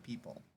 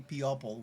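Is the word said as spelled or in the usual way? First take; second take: usual; as spelled. First: It is said the usual way, pee-pul. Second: It is said with every written letter sounded. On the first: "We say people" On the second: "we don't say people?"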